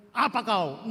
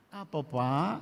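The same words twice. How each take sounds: First: Blunt, rude and louder; a curt brush-off; mock rude reply; rude snap. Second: Respectful gentle question; polite reply. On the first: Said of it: "Nggak begitu". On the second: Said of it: "Lihat bedanya". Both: Shown as a demonstration.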